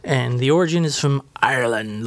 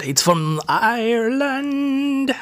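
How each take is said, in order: First: Said in the usual way. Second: High, slow put-on voice on "Ireland"; playful high sing-song on "It's from Ireland"; hammed-up repeat. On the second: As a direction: drag out "Ireland" high and silly.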